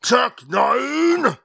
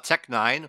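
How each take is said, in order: First: It is said with loud, emphatic inflection. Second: It is said plainly, without special inflection.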